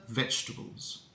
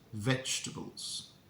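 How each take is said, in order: First: The vowels in the second half are dropped. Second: The vowels in the second half are dropped.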